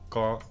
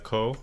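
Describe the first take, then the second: First: It is said with a Thai-speaker pronunciation. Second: It is said with an English-speaker pronunciation. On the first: "their pronunciation is more like ko ko" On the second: "our pronunciation would be like ko"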